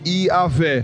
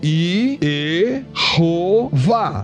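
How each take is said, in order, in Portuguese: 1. É dito com três sílabas, terminando em -weh. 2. É dito com quatro sílabas, terminando em -vah. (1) "vou colocar um Azinho aqui" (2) "Como é que eu posso vocalizar isso diferente?"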